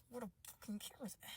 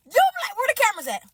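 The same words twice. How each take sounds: First: Very soft, quick, barely there; hushed, hurried disbelief; muttered repeat. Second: High, fast demand; frantic prank-suspecting cry; incredulous outburst. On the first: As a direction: mutter it under the breath. Repeats it under her breath. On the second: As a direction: blurt it out high and quick. Acts disbelief, suspects a prank. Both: Acted.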